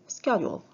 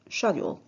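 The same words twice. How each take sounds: First: The word is said in an American accent. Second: The word is said in a British accent. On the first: "in American" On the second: "in British"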